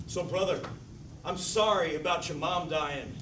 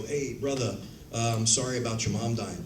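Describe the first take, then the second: First: Slow, overdone stage-play line; stagey theater delivery. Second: Said in the usual way. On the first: Shown as a demonstration. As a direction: overact it like theater acting. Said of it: "I have to deliver it like this". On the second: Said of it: "a scene where I go".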